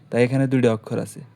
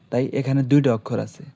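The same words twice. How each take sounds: The two takes are said the same way.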